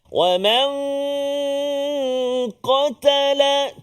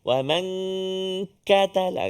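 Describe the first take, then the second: First: The k sound is made deep in the throat. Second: The k sound is made forward in the mouth. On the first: The speaker calls it right. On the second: The speaker calls it wrong.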